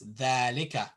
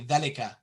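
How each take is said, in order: First: One vowel is clearly lengthened. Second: All the vowels are said short. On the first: The speaker calls it right. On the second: The speaker calls it wrong. "You don't say"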